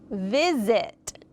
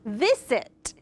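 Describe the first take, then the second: First: The middle consonant is a buzzing Z sound. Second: The middle consonant is a hissing S sound. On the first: The speaker calls it right. "let's try it with the Z sound" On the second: The speaker calls it wrong. "with the S sound"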